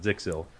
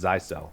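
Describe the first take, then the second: First: The name begins with a short 'zik' sound. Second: The name begins with a long 'zy' sound. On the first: This is how the speaker used to say it. The speaker calls it wrong. "I used to pronounce it Zixil" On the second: This is the official way to say it. The speaker calls it right. "the right pronunciation is Zycel"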